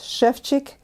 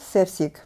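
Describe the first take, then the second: First: The name uses 'sh' and 'ch' sounds. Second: The name uses plain 's' sounds throughout. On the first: The speaker calls it right. "they make them into sh and ch" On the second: The speaker calls it wrong. "no, it's not Sevsik"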